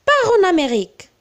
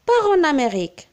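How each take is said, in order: First: Commanding, higher and louder, fast; firm order. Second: Gentle advice. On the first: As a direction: bark it as a command. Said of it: "c'est un ordre". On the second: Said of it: "si nous voulons donner un conseil". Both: Shown as a demonstration.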